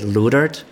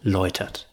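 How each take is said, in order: First: The first vowel does not sound like 'oy'. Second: The first vowel sounds like 'oy'. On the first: This is how people unfamiliar with the spelling say it. "they tend to say Leutert, which is fine too" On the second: This is the native way to say the name. "is how I introduce myself here in Germany"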